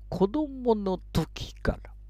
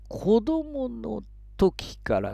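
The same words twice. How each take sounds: First: It is read as one smooth phrase. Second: It is read in short, choppy chunks. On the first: "大きなフレーズの読み方" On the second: "小刻みなリズム"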